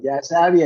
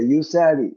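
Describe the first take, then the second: First: The first syllable has the vowel 'a'. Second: The first syllable has the vowel 'u'. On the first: The speaker calls it wrong. "യസാവി അല്ല" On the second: The speaker calls it right.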